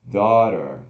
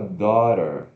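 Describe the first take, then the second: Both takes have the same delivery.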